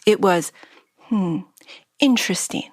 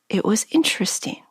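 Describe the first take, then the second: First: A hesitant pause comes before the last word. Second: It is said smoothly without a pause.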